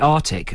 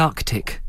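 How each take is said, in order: First: The first C sound is left out. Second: The first C sound is clearly pronounced. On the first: The speaker calls it wrong. "some people say Arctic as if there's no C, first C in it" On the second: The speaker calls it right. "I like to say both C's"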